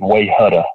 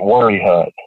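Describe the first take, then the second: First: The name starts with 'way' and ends 'hutta'. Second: The name starts with 'worry' and ends 'hut'. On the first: This is how an outsider reading the spelling would say it. "to anybody else would look like Wayhutta" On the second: This is how local people actually say it. "we pronounce it Worry Hut"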